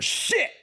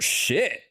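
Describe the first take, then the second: First: It sounds angry. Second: It sounds surprised. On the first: Something made you mad. "Now you're angry" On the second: Something caught you off guard.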